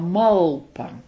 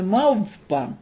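First: The middle consonant is an l sound. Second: The middle consonant is a v sound. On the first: "Не В, а Л, малпа" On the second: "Он называл ее не мавпа"

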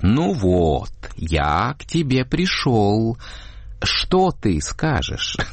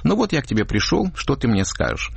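First: It is exaggerated, with the vowels drawn out. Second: It is said in a normal, plain way.

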